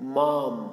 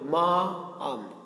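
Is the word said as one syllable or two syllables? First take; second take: one syllable; two syllables. First: It is said as one single syllable. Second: It is split into two separate syllables. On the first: The speaker calls it right. "তিনটি ব্যঞ্জন কিন্তু একসাথে" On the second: The speaker calls it wrong. "মা আম না"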